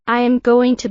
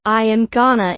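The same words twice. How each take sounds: First: "I am going to" with every syllable clear; full form. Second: "gonna" as one linked, reduced word. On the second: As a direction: run "going to" together into "gonna". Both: Shown as a demonstration.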